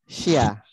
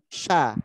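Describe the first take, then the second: First: The s is followed by a separate y glide. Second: A single sh sound opens straight into the vowel. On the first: The speaker calls it wrong. "Sengajain S Y A" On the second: The speaker calls it right. "yang tidak pakai transliterasi S Y A. Jadi langsung sekali jadi"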